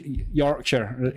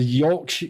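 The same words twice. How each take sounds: First: Badly faked Yorkshire accent on "Yorkshire"; half-hearted Yorkshire pronunciation; attempted Yorkshire accent. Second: Said in the usual way. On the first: Shown as a demonstration. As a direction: have a weak go at Yorkshire. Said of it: "I can't do a Yorkshire accent".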